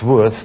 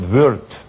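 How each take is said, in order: First: The name has a plain, simplified vowel. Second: The name has the German rounded vowel. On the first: "you don't uh, have this pronunciation" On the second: "In Germany we call it Wurt"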